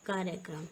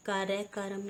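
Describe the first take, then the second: First: कार्यक्रम as "karya-kram"; correct pronunciation. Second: कार्यक्रम as "karya-karam"; wrong pronunciation. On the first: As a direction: keep kr joined in कार्यक्रम. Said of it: "ये होता है हमारा". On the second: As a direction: add a vowel inside kram of कार्यक्रम. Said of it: "लिखा है यहाँ पर". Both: Shown as a demonstration.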